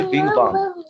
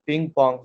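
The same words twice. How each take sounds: First: "बिंग बांग" with voiced English b sounds; English-letter misreading. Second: "पिंग पोंग" with p sounds for written b; Chinese pronunciation. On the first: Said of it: "हम English में जब बोलते हैं बी को". ("बिंग बांग" کو انگریزی والی ب کی آواز سے بولیں) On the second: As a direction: say "पिंग पोंग" the Chinese way, each word starting on a voiceless p. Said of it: "सही बोल रहे हैं आप". ("पिंग पोंग" کو چینی تلفظ میں پ کی آواز سے بولیں) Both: Shown as a demonstration.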